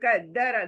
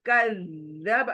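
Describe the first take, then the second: First: The doubled consonant is rushed without holding. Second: The doubled consonant is held with a pause. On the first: The speaker calls it wrong. "कद्दर नहीं" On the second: The speaker calls it right. "देखिए कज़्ज़ब"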